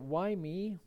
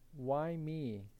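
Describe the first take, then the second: First: It sounds complaining and resentful. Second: It sounds grateful and humbled.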